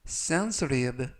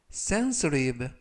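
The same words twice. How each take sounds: First: Sensitive with the T as a soft r-like flap, said slowly; soft flapped T. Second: Sensitive repeated with the T as a soft r-like flap, slowly; soft flapped T. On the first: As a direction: say sensitive slowly, T softened to a light r. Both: Shown as a demonstration. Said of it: "T가 부드럽게 트가 아니라 르".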